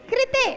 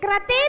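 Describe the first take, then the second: First: The first syllable is pronounced with ri. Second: The first syllable is pronounced with ra. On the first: The speaker calls it right. "ये रा नहीं है, रिरी है।" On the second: The speaker calls it wrong. "कृते नहीं"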